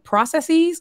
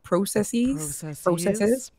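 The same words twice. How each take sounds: First: It is said in a usual, non-Canadian way. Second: It is said the way Canadians say it.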